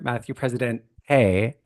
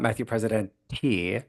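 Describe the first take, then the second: First: The surname ends with an 'ay' sound. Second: The surname ends with a 'tee' sound. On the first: The speaker calls it right. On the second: The speaker calls it wrong.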